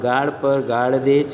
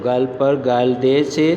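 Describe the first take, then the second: First: The l sound is a retroflex l. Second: The l sound is a plain dental l. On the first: The word means abuse. The speaker calls it right. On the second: The word now means cheek instead of abuse. The speaker calls it wrong.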